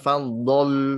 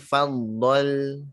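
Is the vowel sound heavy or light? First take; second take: heavy; light. First: The vowel is said heavy and darkened. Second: The vowel is said light and clear. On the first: The speaker calls it wrong. "bukan faddal" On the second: The speaker calls it right. "tapi faddal tipis"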